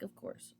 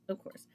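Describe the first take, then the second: First: Whispered. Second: Said in the usual way. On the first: Retold or imitated. Agreeing with the girl at Dunk's.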